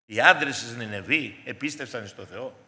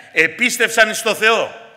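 First: Said in the usual way. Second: "επίστευσαν εις το Θεό" slow, each word weighed, "επίστευσαν" hit hardest; emphatic stress. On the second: Shown as a demonstration. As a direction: lean on "επίστευσαν" and draw the phrase out. (αργά, με έμφαση στο «επίστευσαν») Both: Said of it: "ακούστε τη λεπτομέρεια".

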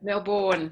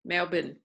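First: "Melbourne" with a full "born" ending; full second vowel. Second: "Melbourne" with a reduced "bun" ending; Australian pronunciation. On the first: Teacher contrasting city pronunciations, "Melbourne" ending in a full "born". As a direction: say "Melbourne" as "Mel-born", both syllables clear. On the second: Teacher showing the Aussie way, "Melbourne" ending in a weak "bn". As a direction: say "Melbourne" as "Mel-bn", second vowel swallowed. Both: Shown as a demonstration. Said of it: "Aussie accent is, is quite different".

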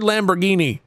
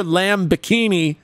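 First: "Lamborghini" run together like the car; LAMBORGHINI as one word. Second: "Lamb Bikini" as separate words, LAMB then bi-KEE-nee; LAMB BIKINI spelled out. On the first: Streamer correcting chat, "Lamborghini" as the car name with hard g. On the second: Streamer insisting to chat, "Lamb Bikini" distinctly as two words. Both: Shown as a demonstration. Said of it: "You heard Lamborghini".

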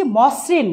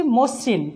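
First: মসৃণ as "mawsrin"; as-written vowel. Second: মসৃণ as "mosrin", slowly; closed "o" after m in মসৃণ; correct spoken vowel. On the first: Teacher reads what is written, মসৃণ with open "aw". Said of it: "লিখেছি". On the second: Teacher models pronunciation, মসৃণ with closed "o". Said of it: "উচ্চারণ করছি". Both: Shown as a demonstration.

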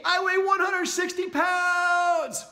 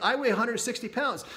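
First: Much higher, louder and slow, shouting it; emphatic declaration. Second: Said in the usual way. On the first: Shown as a demonstration. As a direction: declare it with full emotion. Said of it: "hear that with that emotion". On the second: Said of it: "you just start saying".

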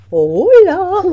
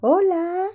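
First: Loud. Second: Said in the usual way. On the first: Real, not acted. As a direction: say hello out loud. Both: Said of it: "Di, habla fuerte".

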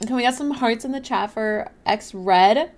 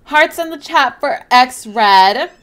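First: Said in the usual way. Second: Louder and slower, rallying chat; slow, loud hype for X Red; hyped callout. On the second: Real, not acted. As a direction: call it out to the whole chat. Repeats call to chat, hyping.

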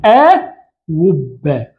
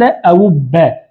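First: "أوبا" very slowly as a, then wubba; hamza turned to waw. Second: "أوبا" as a-'ubba, with a glottal stop; original two-hamza form. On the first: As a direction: split "أوبا" and put a w for the second hamza. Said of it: "تقلب الثانية ماذا". ("أوبا" ببطء بقلب الهمزة واوًا) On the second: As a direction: keep both hamzas in "أوبا". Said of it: "الأولى مفتوحة والثانية". ("أوبا" بتحقيق الهمزة الثانية) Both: Shown as a demonstration.

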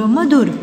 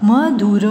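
First: Said in the usual way. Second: Madhur sounded out in parts; syllable by syllable. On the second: Shown as a demonstration. (मधुर को तोड़-तोड़ कर) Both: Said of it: "फिर ये सारे बोलने".

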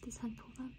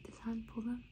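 Both takes have the same delivery.

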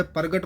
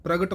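First: ਪ੍ਰਗਟ as par-gat, r after the vowel; wrong reading. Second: ਪ੍ਰਗਟ with half r joined to p, pra-gat; correct reading. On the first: Teacher shows the wrong par-gat. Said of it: "ਪ੍ਰਗਟ ਪਾਠ ਨਹੀਂ ਕਰਨਾ ਹੈ". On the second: Teacher models the right ਪ੍ਰਗਟ with half rara. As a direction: join the r to p in ਪ੍ਰਗਟ. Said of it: "ਪ੍ਰਗਟ ਪਾਠ ਕਰਨਾ ਹੈ". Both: Shown as a demonstration.

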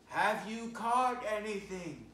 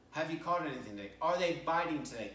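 First: High, loud, slow call across the water; calling from the beach. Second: Quick, offhand question from the pier; casual bystander question. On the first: Acted. Jesus calling from the beach to the fishermen, a high slow loud call. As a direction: call out to the boat from the shore. You hear this voice saying. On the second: Retold or imitated. A passer-by on the pier asks the fishermen, quick and offhand. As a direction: toss it out lightly in passing. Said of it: "you can't help but ask".

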